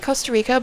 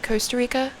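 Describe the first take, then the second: First: It is said in a non-American accent. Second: It is said in an American accent. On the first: "I say Costa Rica" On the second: "people in America say Costa Rica"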